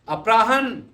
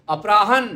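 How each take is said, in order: The two takes are said the same way.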